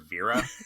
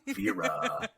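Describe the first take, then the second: First: The name has its usual, plain pronunciation. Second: The name has an odd, foreign-sounding pronunciation. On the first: This is how the name is normally said. The speaker calls it right. "It's never Vera" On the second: This imitates how the narrator says the name. The speaker calls it wrong. "It's just Vera, and it's it gets so weird after a while"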